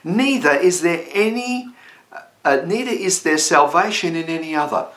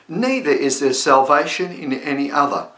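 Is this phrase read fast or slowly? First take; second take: slowly; fast. First: The phrase is read at a slow pace. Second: The phrase is read at a fast pace. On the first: "let me read that slowly" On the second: "I went maybe too quick"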